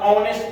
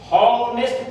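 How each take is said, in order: First: "ऑनेस्ट" beginning on a pure vowel; silent H. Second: "हॉनेस्ट" with a clear h before the vowel; H sounded. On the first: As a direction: drop the H and open "ऑनेस्ट" on o. ("ऑनेस्ट" को बिना ह के, स्वर से शुरू करके) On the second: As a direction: put a breath of H on the front of "हॉनेस्ट". ("हॉनेस्ट" को ह की आवाज़ से शुरू करके) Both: Shown as a demonstration. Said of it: "औ से पढ़ते हो या हौ से पढ़ते हो?".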